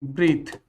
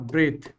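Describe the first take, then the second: First: ब्रीथ said with a long ee vowel, like breethe; verb breathe. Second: ब्रेथ said with a short e vowel, like breth; noun breath. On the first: Teacher contrasting verb and noun: ब्रीथ with long ee. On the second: Teacher contrasting noun and verb: ब्रेथ with short e. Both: Shown as a demonstration. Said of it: "देखो ये ब्रीथ है और ये ब्रेथ है".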